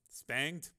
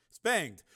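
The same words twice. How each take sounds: First: "spanged" with a rising tune; questioning. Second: Said in the usual way. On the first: Real, not acted. Reader doubting an odd word in the text, questioning "spanged". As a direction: query the word "spanged", pitch lifting at the end.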